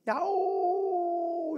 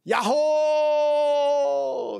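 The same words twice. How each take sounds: First: High, drawn-out echo call; long far-off mountain echo; distant echo. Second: Long, high, loud holler; big sustained mountain yell; shouting yahoo. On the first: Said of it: "메아리가 돼가지고 저 멀리서". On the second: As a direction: call out from a hilltop, drawn out. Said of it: "소리를 질렀어요". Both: Retold or imitated.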